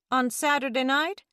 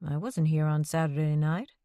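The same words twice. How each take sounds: First: Saturday lifted high in a rising question; pointed question leaning on Saturday; mother hitting Saturday to catch her son out; stress on Saturday. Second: Wasn't pushed hard, rising denial; stress on wasn't. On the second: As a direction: lean on wasn't to deny it. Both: A narrator's reading.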